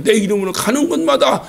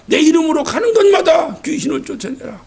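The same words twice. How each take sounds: First: Said in the usual way. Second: 곳마다 stretched out and pressed harder on the repeat; 명령을 힘주어 다시 외치듯; stronger repeat. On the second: Shown as a demonstration. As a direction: build the command up on 곳마다.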